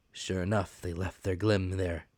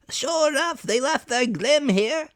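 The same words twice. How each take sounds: First: Said in the usual way. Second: Pirate voice. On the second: Acted. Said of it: "said the fellow from the window".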